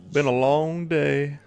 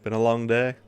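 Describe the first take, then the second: First: Higher, slow, dragged-out weary sigh; weary drawl. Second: Said in the usual way. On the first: Shown as a demonstration. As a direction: stretch it out like you're exhausted. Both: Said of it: "Sorry, I'm tired today".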